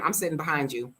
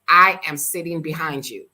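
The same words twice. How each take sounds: First: Said in the usual way. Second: "I am" stressed, louder, every word separate; emphatic warning. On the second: Retold or imitated. Passenger warns the yelling driver, emphatic stress on "I am". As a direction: hit "I am" hard, no contraction.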